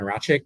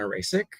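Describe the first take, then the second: First: The name is said with a 'ch' sound. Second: The name is said with an 's' sound. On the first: The speaker calls it right. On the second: The speaker calls it wrong.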